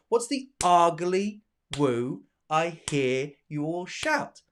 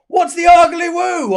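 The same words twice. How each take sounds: First: Slow, spaced beats on "ugly", "woo", "hear", "shout"; light start, then a separate beat from "ugly" on; clapped rhythm. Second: High, loud cry from a whole crowd; shouted question. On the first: Shown as a demonstration. Teacher showing where claps begin, slow measured recital. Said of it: "I don't clap at the beginning". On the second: Acted. Teacher voicing the class's question from the poem, shouted.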